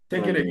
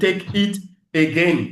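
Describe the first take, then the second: First: The words run together into one stream. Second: Each word is said separately and clearly. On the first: "Ça s'enchaîne" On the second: "pour que tu vois que, ah, il a dit trois mots"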